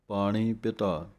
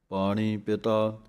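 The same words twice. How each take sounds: Both takes have the same delivery.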